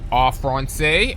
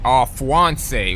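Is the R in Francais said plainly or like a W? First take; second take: plainly; like W. First: The R in Francais is said plainly. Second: The R in Francais sounds like a W.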